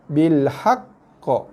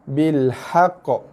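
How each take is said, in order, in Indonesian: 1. Qaf akhir ditekan dan ditahan, lalu dilepaskan. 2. Qaf akhir pendek, tanpa ditekan. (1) "Tekan dulu haq, baru lepaskan lantunan qa" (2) "banyak juga berlaku kesalahan bacaan ... itu adalah bacaan huruf qalqalah tanpa sabdu"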